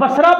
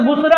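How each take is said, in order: First: The first vowel sounds like 'a'. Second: The first vowel sounds like 'u'. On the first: This is how the word is commonly said. "ये लफ्ज़ बसरा बोला जाता है" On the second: This is the original form of the word. "असल लफ्ज़ बुसरा है"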